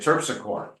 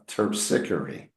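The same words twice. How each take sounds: First: The word does not rhyme with trickery. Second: The word rhymes with trickery. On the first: The speaker calls it wrong. "So I would look at this and say terpsichore" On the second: The speaker calls it right. "It rhymes with trickery"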